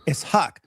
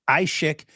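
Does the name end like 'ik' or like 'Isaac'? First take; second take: like Isaac; ik. First: The name ends like the name Isaac. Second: The name ends with an 'ik' sound. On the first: The speaker calls it right. "it's Ishaq, like Isaac" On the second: The speaker calls it wrong. "There's no Ishik"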